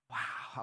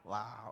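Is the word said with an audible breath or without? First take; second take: with breath; without. First: It is said with a little audible breath. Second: It is said plainly, with no breath.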